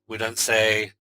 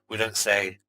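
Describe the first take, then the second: The two takes are said the same way.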